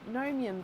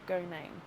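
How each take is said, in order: First: The first G is silent. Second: The first G is clearly pronounced. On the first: The speaker calls it wrong. "in my head, I was saying gnome, gnomium because... gnome has got like a silent G" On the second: The speaker calls it right. "that's not right. So I'll try to remember no, go name"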